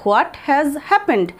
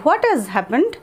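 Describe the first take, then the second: First: Drawn out, every word stretched; very slow. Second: Said in the usual way. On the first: Shown as a demonstration. Teacher repeating slowly so students can copy. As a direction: spell it out slowly for learners. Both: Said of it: "বা এরকমও বলতে পারি".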